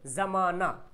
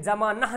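First: ज़माना ending in an open long aa; usual spoken form. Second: ज़माना as "zamaanah", h breathed; wrong literal reading. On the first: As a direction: leave the h silent in ज़माना. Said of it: "क्या बोलते हैं?". (ज़माना का अंत अलिफ जैसा) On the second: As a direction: end ज़माना on an audible h. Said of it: "ज़माना नहीं बोलते हैं". (ज़माना को "ज़मानह" पढ़ें) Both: Shown as a demonstration.

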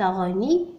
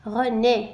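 First: غني with a final "ee" instead of "é"; غني, René misread with an i sound at the end; mispronunciation demo. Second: René ending in a clear "é", not "ee"; René carefully sounded with a closed é ending; correct pronunciation. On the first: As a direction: say غني as "reu-NEE", the wrong ending. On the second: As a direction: say René slowly as "reu-NÉ". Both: Shown as a demonstration. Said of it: "ليس غني".

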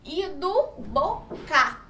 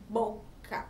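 First: "do boca" stretched out very slowly; slow sounding out. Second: Said in the usual way. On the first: Shown as a demonstration. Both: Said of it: "a gente pode notar o som do".

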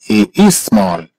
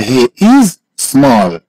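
First: Said in the usual way. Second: Slow, word by word, stretching "is"; slow model. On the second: Shown as a demonstration. Teacher models "he is small" for a student, slowly. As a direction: hold "is", pause, then a separate "small".

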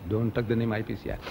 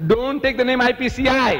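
First: Low, soft restatement; subdued, unshouted version. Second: High, emphatic re-enacted cry; mock inward shout. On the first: Retold or imitated. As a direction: say the order softly and lower, without shouting. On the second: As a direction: act out the order as a shout. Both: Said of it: "No, I didn't shout".

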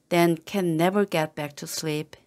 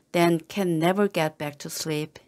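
No difference in how they are said.

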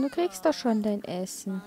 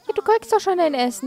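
First: Softer, hushed repeat; calm the child down gently; quiet, patient reassurance; soothing. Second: Fast, higher and louder; hurried, exasperated reassurance; impatient. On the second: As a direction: rattle it off at the whining child. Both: Acted. Soothing the hungry Sim.

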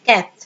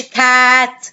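First: كات with a short, quick a; short vowel. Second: كات with the a dragged out long; wrong long vowel. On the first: Teacher makes the vowels short for pupils, كات with a short vowel. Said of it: "اخليهم قصيرين". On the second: Teacher shows what she must not say, كات with a long vowel. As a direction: stretch the vowel of كات slowly. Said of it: "ما اقولش كات". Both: Shown as a demonstration.

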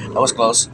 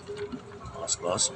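First: Said in the usual way. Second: Slow, hushed, relieved; breathless relief. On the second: Real, not acted. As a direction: let the breath out slowly.

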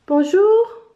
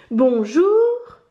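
First: High, louder hello lifting at the end; greeting. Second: Drawn-out hello, rising at the end; insistent repeat. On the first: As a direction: call out a bright-pitched first hello, rising. (salut lancé d'une voix aiguë) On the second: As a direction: stretch the greeting to get an answer. (bonjour répété, insistant et étiré) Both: A narrator's reading. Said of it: "répète Elena".

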